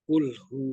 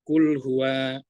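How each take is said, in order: First: The phrase ends with a short 'hu'. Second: The phrase ends with a full 'huwa'. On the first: The speaker calls it right. "Harus kul hu" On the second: The speaker calls it wrong. "tidak boleh"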